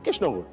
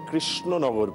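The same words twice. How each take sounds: First: The name is said in a loose local way. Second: The name is said clearly with every sound. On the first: The speaker calls it wrong. "আপনি ভুল বললেন" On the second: The speaker calls it right. "পরিষ্কার করে উচ্চারণ করে বুঝিয়েছিলেন যে আমি শুদ্ধ উচ্চারণ করলাম"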